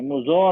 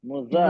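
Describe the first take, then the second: First: The vowel is thick and heavy, like o. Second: The vowel is thin and light, like a. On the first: The speaker calls it wrong. "मुजो नहीं, जो मोटा हो जाएगा" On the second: The speaker calls it right. "Light letter है"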